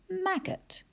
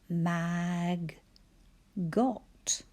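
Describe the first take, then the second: First: The second syllable has a weak, reduced vowel. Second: The second syllable has a full short vowel. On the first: It is the usual everyday pronunciation. "maggot is the way we would usually say it" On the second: It is said to help with spelling. "I'm going to give you a spelling language because the way we actually say it isn't very helpful"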